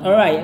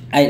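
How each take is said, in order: First: The word is said in full, 'alright'. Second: The word is clipped to a short 'ait'. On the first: "dia mau mengatakan alright" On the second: "zaman sekarang ada yang mengatakan ait aja"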